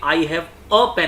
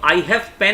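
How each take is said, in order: First: "a" slowed and given clear weight, "I have a pen" spelled out slowly; slow model sentence with a stressed "a". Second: Said in the usual way. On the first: Shown as a demonstration. Teacher to Hindi students, slowly stressing the article. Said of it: "बोलते हैं". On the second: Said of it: "नहीं बोलते".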